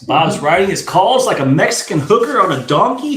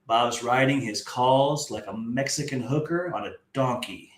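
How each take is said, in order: First: The sentence is read at a normal, quicker pace. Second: The sentence is read at a noticeably slower pace.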